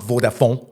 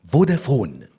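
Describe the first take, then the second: First: The word is said with a French-sounding accent. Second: The word is said with a plain accent. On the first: The speaker calls it wrong. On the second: The speaker calls it right.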